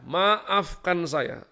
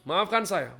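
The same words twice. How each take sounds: First: "maafkan saya" stretched very slowly; drawn-out apology. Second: Said in the usual way. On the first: Real, not acted. Preacher repeating his apology to the congregation, very slowly. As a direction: drag out "maafkan saya" for emphasis.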